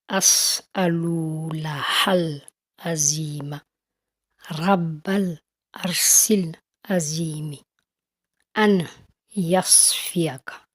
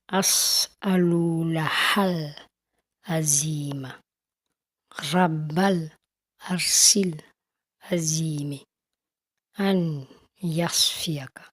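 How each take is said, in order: No difference in how they are said.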